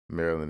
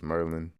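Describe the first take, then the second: First: The first syllable sounds like 'mare'. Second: The first syllable sounds like 'mer'.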